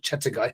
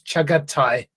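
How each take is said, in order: First: The second syllable is 'ta', the third 'gai'. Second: The second syllable is 'ga', the third 'tai'. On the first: The speaker calls it wrong. "not Chatagai" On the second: The speaker calls it right. "It's Chagatai"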